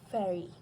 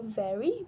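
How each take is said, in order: First: It begins with a voiceless f sound. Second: It begins with a voiced v sound. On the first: The speaker calls it wrong. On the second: The speaker calls it right.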